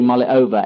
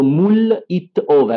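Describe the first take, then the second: First: The words run together smoothly as one unit. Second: Each word is said separately and carefully. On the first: It is said the way it was heard. The speaker calls it right. "people will just say mull it over" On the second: It is said the way it is written. The speaker calls it wrong. "ma è scritto mull it over"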